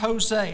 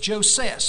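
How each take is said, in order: First: The name begins with an H sound, Spanish-style. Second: The name begins with an English J sound. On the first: "That's the way I would pronounce it today. It may not have that Spanish connotation" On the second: "Maybe it's Joses"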